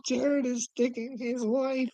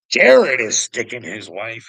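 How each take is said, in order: First: High, slow mock read of the line. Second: Louder repeat. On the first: Reading a chat message aloud, high and slow in mockery. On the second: Repeating the chat message to viewers, lower and louder. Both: Real, not acted.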